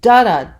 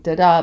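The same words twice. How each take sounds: First: The stress is on the first syllable. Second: The stress is on the second syllable. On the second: "not going"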